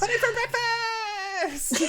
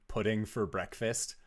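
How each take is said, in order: First: Put-on very high, loud kid shriek; yelling young child. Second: Said in the usual way. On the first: Young son cheering for pudding at breakfast, shrieking with glee. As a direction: squeal it like an overexcited little kid. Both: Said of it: "a young child's voice yelling".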